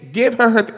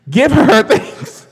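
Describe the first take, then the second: First: Loud, higher demand cut short off mic; insistent praise. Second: Much louder, slower, laughing into the mic; loud laughing praise. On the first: Demanding credit for [name], cut short off mic. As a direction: start the demand, then break off to reach the mic. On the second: Demanding credit for [name], belted into the mic laughing. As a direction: lean into the mic and belt it through a laugh. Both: Real, not acted. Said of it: "let me get to the mic".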